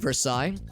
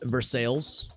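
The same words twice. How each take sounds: First: The name is said with French pronunciation. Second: The name is said with Anglicized local pronunciation. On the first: This is the original foreign name. "it's spelled like Versailles" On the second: This is the local Missouri town name. "in Missouri it's pronounced Versailles"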